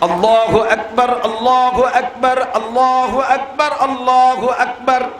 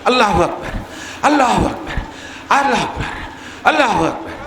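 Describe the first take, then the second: First: All four phrases are said in one breath. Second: Each phrase is said with its own breath.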